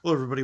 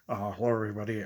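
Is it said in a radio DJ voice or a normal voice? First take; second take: normal; radio DJ. First: It is said in his normal speaking voice. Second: It is said in a put-on radio DJ voice.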